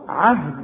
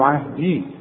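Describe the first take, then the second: First: The word ends without a long ee vowel. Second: The word ends with a long ee vowel. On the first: The word runs straight into the next one. "الغي الياء دي بتاعت عهدي من النطق اذا وصلت" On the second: The reciter stops after this word. "انما تثبت اذا وقفت"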